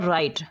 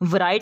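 First: The w at the start is silent. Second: The w at the start is sounded. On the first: The speaker calls it right. "तो ये आएगा राइट" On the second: The speaker calls it wrong. "वराइट नहीं पढ़ते"

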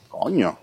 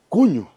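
First: It is said with a puzzled tone. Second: It is said with an amazed tone. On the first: Someone seems strange to the speaker. "Que una persona te parece extraña" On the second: The speaker is astonished.

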